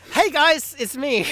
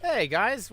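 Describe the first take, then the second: First: Loud, high, bouncy hello; excited greeting. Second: Said in the usual way. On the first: Real, not acted. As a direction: restart with a big energetic hey. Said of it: "Never mind".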